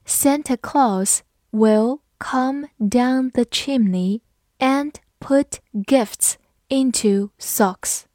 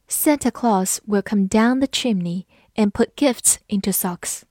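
First: Very slow, careful reading; slow read-through. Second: Said in the usual way. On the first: Shown as a demonstration. Teacher reading the Santa sentence slowly for learners. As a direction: spell out every word slowly. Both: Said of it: "好，我们慢慢来读".

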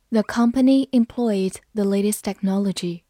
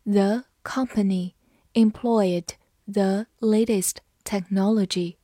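First: Said in the usual way. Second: Slow, deliberate read-aloud; slow classroom model reading. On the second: Shown as a demonstration. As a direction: take each word slowly for learners. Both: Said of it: "好，慢读一遍。".

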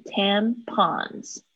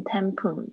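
First: Tampons drawn out slowly, with an open "ah" in the second syllable; correct pronunciation. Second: Tampon said the wrong way, without the final s; mispronounced ending. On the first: Teacher correcting student's word, carefully pronounced. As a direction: model "tampons" slowly, ending in -ahns. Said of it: "它是念tampons". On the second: Teacher showing student the wrong reading, mispronounced. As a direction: say "tampon" as the learner misread it. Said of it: "它不是念tampon". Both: Shown as a demonstration.

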